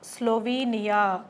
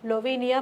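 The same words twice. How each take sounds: First: The word begins with an audible S sound. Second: The word begins without any S sound.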